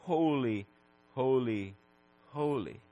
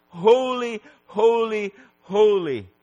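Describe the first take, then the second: First: Soft, low, spaced-out repetition; hushed reverence. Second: High, loud cry, easing downward. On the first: Preacher dwelling on the holiness of God, hushed reverence. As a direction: let each word sink quietly. Reverent repeat of the seraph's cry. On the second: Seraph's cry repeated for the holiness of God, crying out. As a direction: proclaim each word as a ringing cry. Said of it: "his cry of". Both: Acted.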